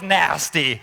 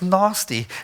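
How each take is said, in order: First: The word is said in an American accent. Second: The word is said in a South African accent. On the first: The speaker calls it right. "my favorite word in an American accent is the word nasty" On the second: The speaker calls it wrong. "if we say it in South Africa, it's, it's nasty. It doesn't even sound nasty"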